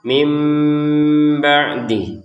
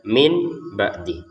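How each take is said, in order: First: The first word ends with an m sound. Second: The first word ends with an n sound. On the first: "yang awalnya min kita bacanya mim" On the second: "ini kalau tertulisnya min ba'di"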